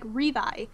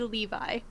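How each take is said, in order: First: The name begins with an R sound. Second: The name begins with an L sound. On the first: This is how a Japanese speaker would say it. The speaker calls it wrong. "if you were speaking Japanese, you would say his name like Revi" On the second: This is the intended form of the name. The speaker calls it right. "it's supposed to be Levi"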